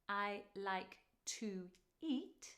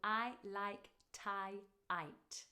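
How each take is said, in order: First: Each word keeps its usual vowel sound. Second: Every vowel is changed to an 'eye' sound. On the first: "instead of saying" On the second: "the only vowel sound is an I sound"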